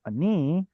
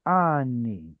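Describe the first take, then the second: First: "ani" as a-NEE with a reduced first vowel, rising; stress on second syllable. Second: "ani" as slow AH-nee, stress on the first syllable; full vowel, stress moved. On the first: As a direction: skim the "a" of "ani" and lift on "ni". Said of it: "So this is the word ani". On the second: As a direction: stretch the full "a" of "ani", then drop on "ni". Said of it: "a full vowel ani". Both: Shown as a demonstration.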